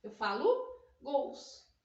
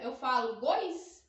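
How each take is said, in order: First: "gols" said clearly as gows, slow and firm; right form. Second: "gois" said as goys, a questioning wrong plural; wrong form. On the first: Teacher confirming the correct plural, slow and firm. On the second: Teacher asking if gois is right, questioning tone. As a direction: test the class with the wrong form. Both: Shown as a demonstration. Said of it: "Não".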